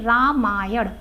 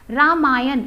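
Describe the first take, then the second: First: रामायण said slowly, the right way; correct pronunciation. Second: रामायण said loud, the popular way; the everyday रामायण; common pronunciation. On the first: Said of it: "इसका शुद्ध शब्द है". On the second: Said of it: "ये प्रचलित है". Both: Shown as a demonstration.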